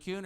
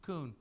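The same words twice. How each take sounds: First: "Kuhn" with a y-glide, KYOON; first pronunciation option. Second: "Kuhn" without a glide, KOON; second pronunciation option. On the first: Host checks the day's version, "Kuhn" pronounced KYOON. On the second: Host checks the day's version, "Kuhn" pronounced KOON. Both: Shown as a demonstration. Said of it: "Which is it, Kuhn or Kuhn?".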